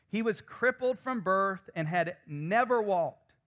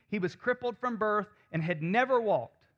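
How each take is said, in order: No difference in how they are said.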